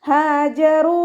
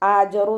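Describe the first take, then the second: First: The word starts with a breathy h. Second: The word starts with a glottal catch. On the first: The speaker calls it right. "ഹ എന്നുള്ള അക്ഷരത്തിൻ്റെ സൗണ്ടിനെ തൊണ്ടയുടെ അവസാന ഭാഗത്ത് നിന്ന് തന്നെ കൊണ്ടുവരാൻ" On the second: The speaker calls it wrong. "ആജറു എന്നൊന്നും ആയി ഓതി പോവാതെ ശ്രദ്ധിക്കുക"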